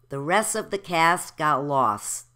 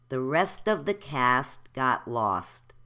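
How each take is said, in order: First: The T sounds are left out. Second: The T sounds are clearly pronounced.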